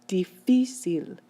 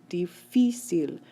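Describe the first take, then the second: Both takes have the same delivery.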